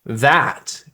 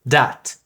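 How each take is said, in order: First: It starts with a voiced th sound. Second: It starts with a d sound.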